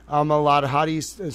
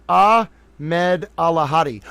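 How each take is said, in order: First: "Ahmad Alahadi" run together in a stumble; stumbled name. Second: "Ahmed Alahadi" sounded out slowly, piece by piece; careful pronunciation. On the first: Host reading a note aloud, stumbling over "Ahmad Alahadi". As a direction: trip over "Ahmad Alahadi", syllables blurred. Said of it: "Sorry, I'm gonna get". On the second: Host working out a hard name, sounding out "Ahmed Alahadi". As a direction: slowly separate "Ah-med" from "Alahadi". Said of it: "took me so long to figure out how to say that name". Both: Real, not acted.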